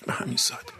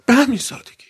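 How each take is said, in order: First: به همین سادگی breathed as a soft, voiceless whisper; whispered echo. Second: Higher, ringing exclamation of به همین سادگی; emphatic declaration. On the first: Preacher echoing his point to the gathering, hushed whisper. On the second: Preacher marvelling at the old man's faith, emphatic declaration. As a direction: proclaim به همین سادگی high and strong. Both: Real, not acted.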